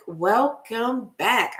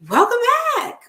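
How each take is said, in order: First: Slow, drawn-out welcome; slow, settled greeting. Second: Much higher, sung-out welcome; high cheerful greeting; bright high greeting. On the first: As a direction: stretch it out slowly. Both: Real, not acted.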